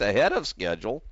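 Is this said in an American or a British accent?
American. It is said in an American accent.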